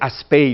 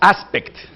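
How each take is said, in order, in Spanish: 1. El nombre termina en vocal, sin consonantes finales. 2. El nombre termina con un sonido consonántico claro: 'kt'. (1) "creo que se dice Aspey o algo así" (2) "Le decimos aspect, ¿no? Porque así se lee, pero ellos no dicen eso"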